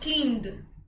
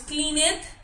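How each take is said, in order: First: The ending is just a d sound. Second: The ending is said as an extra syllable. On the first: The speaker calls it right. "sino cleaned" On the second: The speaker calls it wrong. "no decimos cleaned"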